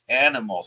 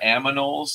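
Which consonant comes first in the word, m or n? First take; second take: n; m. First: The n sound comes before the m sound. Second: The m sound comes before the n sound. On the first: The speaker calls it right. "it's animals" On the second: The speaker calls it wrong. "I know that she's going to say it wrong"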